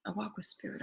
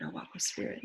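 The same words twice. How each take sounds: First: Quiet, inward affirmation; soft spoken affirmation. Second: Breathy whisper of the mantra; whispered affirmation. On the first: Speaker affirming walking with spirit, softly. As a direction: murmur it to yourself softly. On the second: Speaker repeating the mantra, now whispered. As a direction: whisper it as a private vow. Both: Acted.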